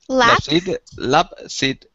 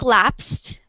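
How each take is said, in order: First: The ending is said as a separate syllable. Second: The word is said as a single syllable. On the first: The speaker calls it wrong. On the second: The speaker calls it right.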